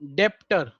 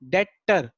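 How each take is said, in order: First: The b sound is pronounced in the middle. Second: The b sound is silent in the middle. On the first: The speaker calls it wrong. "इसकी spelling पड़ती है डेप्टर" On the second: The speaker calls it right. "बी यहां silent होता है, इसलिए हम क्या बोलते हैं डेटर"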